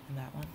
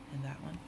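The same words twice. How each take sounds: The two takes are said the same way.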